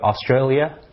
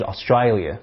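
First: The a vowels sound plain. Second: The a vowels sound like i.

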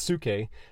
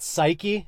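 First: The word begins with a 'soo' sound. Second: The word begins with a 'sigh' sound. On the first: This is the pronunciation a reference work gives. "the Strong's is saying it's pronounced suke" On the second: This is the everyday English pronunciation. "we would pronounce it psyche"

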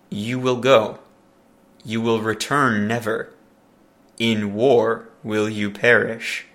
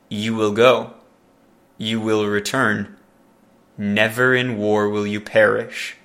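First: There is a pause after 'never'. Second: There is a pause before 'never'.

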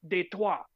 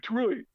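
First: The word is said with a French pronunciation. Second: The word is said with an English pronunciation. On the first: This is the original form of the name. "it's pronounced Detroit. But nobody says that" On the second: This is how people commonly say the name. "It's Detroit"

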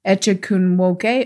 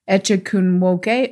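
First: The middle consonant is a 'ch' sound. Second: The same.

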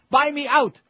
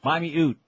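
First: It is said in the speaker's plain accent. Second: It is said in a northern accent, 'out' as 'oot'.

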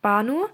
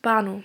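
First: The voice rises at the end like a question. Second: The voice falls at the end like a statement.

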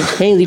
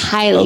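First: The first syllable sounds like 'hay'. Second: The first syllable sounds like 'high'. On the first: "I've heard people say Haley charge" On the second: "It's highly"

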